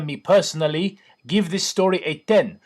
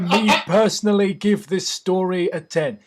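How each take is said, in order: First: It is read in a put-on foreign accent. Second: It is read in the speaker's ordinary accent.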